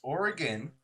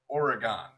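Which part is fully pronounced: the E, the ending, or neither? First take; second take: neither; ending. First: The E and ending are both reduced. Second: The ending is pronounced fully as gone. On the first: The speaker calls it right. "it's Oregon" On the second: The speaker calls it wrong. "or the G O N"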